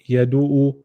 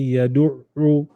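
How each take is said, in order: First: The middle consonant is short and single. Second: The middle consonant is held long and doubled. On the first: The speaker calls it wrong. "don't say yadu'u" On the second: The speaker calls it right. "say yadu'u"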